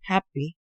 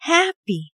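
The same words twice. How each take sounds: First: The word is said flatly, without feeling. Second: The word is said with real feeling. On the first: The speaker calls it wrong. "그냥 happy" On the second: The speaker calls it right. "이 감정을 실어서 이 단어를 말하는 것"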